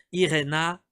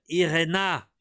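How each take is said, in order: Both takes have the same delivery.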